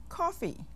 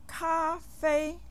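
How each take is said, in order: First: Said in the usual way. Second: Cafe as two high, level syllables, ka-fei; Chinese pronunciation. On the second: Shown as a demonstration. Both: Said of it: "almost the same in English and".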